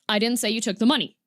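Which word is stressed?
none. It is said flat, with no word stressed. "if you just say it completely flat"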